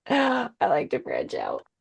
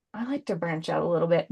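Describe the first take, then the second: First: A gasp, then "I like to branch out" said slowly, leaning on "branch out"; pun delivered again. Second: Said in the usual way. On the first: Shown as a demonstration. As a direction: savor the pun, slow and pointed on "branch out". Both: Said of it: "Get it?".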